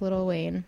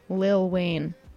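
First: The first word is fully enunciated as little. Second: The first word is said short as lil. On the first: The speaker calls it wrong. "I just said little in like a very enunciated way" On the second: The speaker calls it right. "is the correct way to say it"

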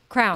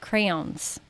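First: The word sounds like crowns, one syllable. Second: The word is said as cray-ons, two syllables. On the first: This is the speaker's own habitual pronunciation. "I call crayons crowns" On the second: This is the standard pronunciation someone else uses. "we're supposed to say crayon"

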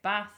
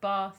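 First: It is said in a northern English accent. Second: It is said in a southern English accent.

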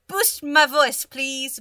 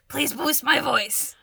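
First: It is said in the speaker's own voice. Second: It is said in an imitation of Ixon.

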